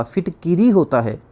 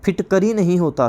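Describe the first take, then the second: First: फिटकिरी with a short i, phit-ki-ri; फिटकिरी, phit-ki-ri, the correct word; correct form. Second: फिटकरी with no i in the middle; फिटकरी, phit-kə-ri, shown as wrong; wrong form. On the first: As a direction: say फिटकिरी the right way. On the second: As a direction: say फिटकरी as the common mistake. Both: Shown as a demonstration. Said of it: "सही शब्द क्या होता है".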